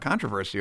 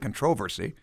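First: It is said in an American accent. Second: It is said in a British accent.

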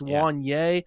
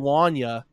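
First: The name ends with an 'ay' sound. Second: The name ends with an 'uh' sound. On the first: The speaker calls it right. "It's Wanye" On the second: The speaker calls it wrong. "It looks like it'd be Wanya"

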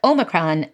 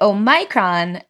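First: The stress falls on the first syllable. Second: The stress falls on the second syllable. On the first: "if you say the word with a primary stress, like Omicron, then the second vowel is the shorter monophthong" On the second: "the vowel in the second syllable is stressed, and it's a diphthong, so it's very long"

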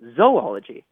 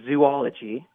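First: The first syllable has a long O sound. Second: The first syllable sounds like 'zoo'. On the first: This is the traditional scientific pronunciation. The speaker calls it right. "our teacher says that it should be pronounced zoology" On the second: This is the common everyday pronunciation. The speaker calls it wrong. "we would typically say zoology"

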